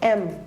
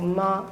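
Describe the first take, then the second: First: It starts with a vowel sound. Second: It starts with a consonant sound. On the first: The speaker calls it right. "You make a vowel sound, you go M" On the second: The speaker calls it wrong. "that would be a consonant sound if you go ma"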